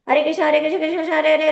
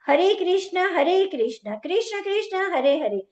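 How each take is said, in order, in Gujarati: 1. શબ્દો અસ્પષ્ટ છે અને એકબીજામાં ભળી જાય છે. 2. દરેક શબ્દ સ્પષ્ટ અને અલગ અલગ બોલાય છે. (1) "આવી રીતે નથી કરવાનો" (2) "દરેક નામનો સ્પષ્ટ રીતે"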